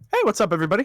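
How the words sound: It is said in a high-pitched voice.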